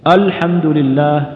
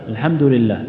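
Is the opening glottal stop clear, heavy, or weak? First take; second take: clear; weak. First: The opening glottal stop is clear and light. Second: The opening glottal stop is weak and faint. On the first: The speaker calls it right. "يقول كذا" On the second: The speaker calls it wrong. "يبدأ بالهمزة لكن ضعيفة"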